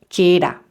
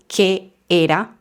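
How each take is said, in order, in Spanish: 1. Las dos palabras se pronuncian juntas, sin pausa. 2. Una pausa corta separa las dos palabras. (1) "pegando las palabras" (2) "no necesitamos una pausa"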